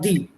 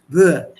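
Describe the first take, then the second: First: The first sound is made without the tongue forward. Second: The first sound is made with the tongue forward. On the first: The speaker calls it wrong. "But that both the pronunciations wrong" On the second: The speaker calls it right. "The tongue has to come to the front and say the"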